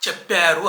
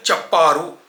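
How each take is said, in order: First: చెప్పారు with the open e as in మేక; చెప్పారు the proper Telugu way, open vowel; correct Telugu way. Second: చెప్పారు with the anchors' flat e, like English; చెప్పారు said the wrong urban way. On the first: Scene: teacher shows viewers the right చెప్పారు, correct vowel. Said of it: "అనాలి". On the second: Scene: imitating how city anchors say చెప్పారు, mispronounced. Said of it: "women యాంకర్లు ఎలా చెప్తున్నారంటే". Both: Shown as a demonstration.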